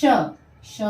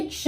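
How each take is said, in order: First: "क्ष" said as kshau, ending in au; "क्ष" stretched into kshau for learners; au vowel added. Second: Said in the usual way. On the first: Shown as a demonstration. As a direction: sound out "क्ष" with an emphatic au ending. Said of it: "मात्रा जुड़ी तो हो जाएगा". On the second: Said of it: "ये क्ष, क्ष में मात्रा".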